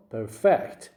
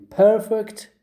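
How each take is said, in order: First: Perfect with a strong FECT; stress on second syllable. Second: Perfect with a strong PER; stress on first syllable. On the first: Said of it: "you stress the second syllable". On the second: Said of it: "the first syllable". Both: Shown as a demonstration.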